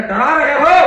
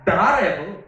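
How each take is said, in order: First: "डरा रहे हो?" thrown back louder and higher with a rising tune; defiant challenge. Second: Said in the usual way. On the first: Acted. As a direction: challenge the threat head-on. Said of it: "Ashtavakra कहते". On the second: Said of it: "कहता".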